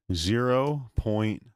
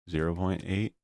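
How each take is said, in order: First: Zero point stretched slow, high and loud; drawn out emphasis. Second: Said in the usual way. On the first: Shown as a demonstration. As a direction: lean hard on Zero, slowly. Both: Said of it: "I can't do point eight".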